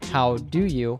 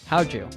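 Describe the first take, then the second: First: The d and y stay separate sounds. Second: The d and y merge into a j sound.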